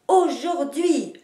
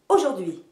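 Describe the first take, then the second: First: The stress is on the first and last syllables. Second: The stress is on the first syllable. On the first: "en marquant les deux places de l'accentuation" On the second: "l'énergie éclate dès le départ et vous accentuez la première syllabe"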